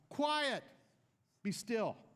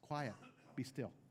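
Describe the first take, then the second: First: It is yelled dramatically. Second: It is said calmly and quietly.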